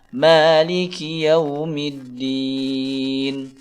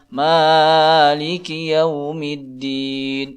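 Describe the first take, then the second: First: The first vowel is held for two counts. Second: The first vowel is stretched overly long. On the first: The speaker calls it right. "Yang benar adalah" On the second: The speaker calls it wrong. "Ini tidak benar menurut ilmu tajwid"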